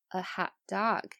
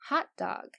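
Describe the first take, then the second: First: The stress falls on the last word. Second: The stress falls on the first word. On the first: It means a dog that feels hot. "那我们一说一直很热的狗，" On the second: It names the sausage food. "我们平时吃的那个热狗，"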